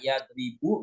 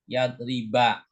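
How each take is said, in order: First: The final syllable ends in a non-'a' vowel. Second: The final syllable ends in an 'a' vowel. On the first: The speaker calls it wrong. "nggak boleh dibaca" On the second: The speaker calls it right. "huruf terakhirnya kan huruf banyak fathah"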